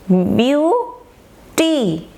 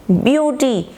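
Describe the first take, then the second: First: beauty drawn out in two parts, view, pause, टी; syllable by syllable. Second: Said in the usual way. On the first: Shown as a demonstration. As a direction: split beauty into long slow syllables. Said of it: "इसी तरह से". (Beauty को ब्यू और टी में तोड़कर, खींचकर) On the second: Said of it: "एक साथ पढ़ा जाएगा".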